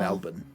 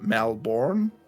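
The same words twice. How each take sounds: First: The R sound in the word is silent. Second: The R sound in the word is pronounced. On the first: The speaker calls it right. "There is an R, but it's silent for our pr- pronunciation" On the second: The speaker calls it wrong. "most people from America call it Melbourne"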